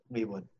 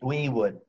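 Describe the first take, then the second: First: Soft muttered echo of "We would."; quiet. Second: Said in the usual way. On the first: Real, not acted. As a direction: drop to a near-mutter on "We would.". Quiet repeat, much softer.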